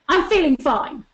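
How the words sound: It is said in an aggressive tone.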